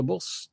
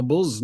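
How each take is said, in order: First: Said in the usual way. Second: "buzz" with a short u, like put, for bus; Manchester buzz. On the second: Shown as a demonstration. Mocking how people out past Hyde say bus, buzz. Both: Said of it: "people talk like that".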